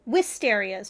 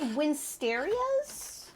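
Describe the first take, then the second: First: No n sound comes before the s. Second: An n sound comes before the s. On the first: The speaker calls it right. "no N" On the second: The speaker calls it wrong. "I probably mispronounced that"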